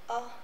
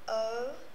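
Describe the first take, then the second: First: The vowel sound is short. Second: The vowel sound is long. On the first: "now the short vowel sounds" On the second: "round your mouth"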